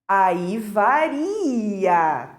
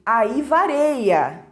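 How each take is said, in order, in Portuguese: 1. O verbo é pronunciado com um som 'i' simples. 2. O verbo é pronunciado com um som 'ei' extra. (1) "a forma correta para esse verbo seria aí varia" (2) "ela cometeu esse desvio da norma padrão"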